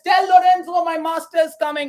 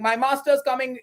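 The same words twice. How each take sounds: First: High, loud hollered announcement; Lancelot yelling. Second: Said in the usual way. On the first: Acted. Lancelot answers Lorenzo with his news, yelling. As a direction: shout the news out like a crier. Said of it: "He just yells out". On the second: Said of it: "Okay, he's like".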